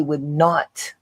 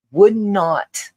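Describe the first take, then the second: First: Said in the usual way. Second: "would not" lifted higher, then falling; emphatic repeat. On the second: Real, not acted. Speaker explains the law's effect, emphatic. Repeats the words to stress them.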